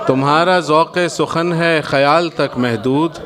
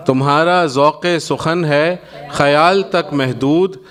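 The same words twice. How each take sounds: The two takes are said the same way.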